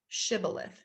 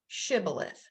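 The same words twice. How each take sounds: Both takes have the same delivery.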